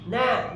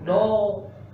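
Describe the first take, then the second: First: The vowel is thin and open, like a. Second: The vowel is thick and rounded, like o. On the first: The speaker calls it right. "Na, na, bukan no" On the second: The speaker calls it wrong. "bukan no"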